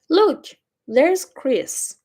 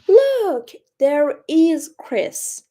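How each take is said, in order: First: 'There is' is contracted to one syllable. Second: 'There is' is said as two full words. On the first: The speaker calls it right. "You can make it short" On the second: The speaker calls it wrong. "It's a little unnatural"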